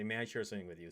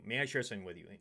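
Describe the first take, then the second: First: It is said in a soft, feminine tone. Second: It is said in a harsh, heated tone.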